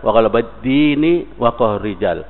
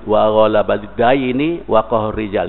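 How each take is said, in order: First: The key word has a plain 'i' vowel. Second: The key word has an 'ai' diphthong. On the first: It means religion. The speaker calls it wrong. "Dibaca wa ghalabid dini" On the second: It means debt. The speaker calls it right. "dain hutang"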